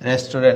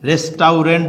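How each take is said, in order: First: It is said the usual way, 'restu-rent'. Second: Each spelled syllable is sounded out, 'res-tau-rent'. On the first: "তাহলে হয়ে যাবে কি রেস্টুরেন্ট" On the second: "রেস্টাউরেন্ট যদি বলি"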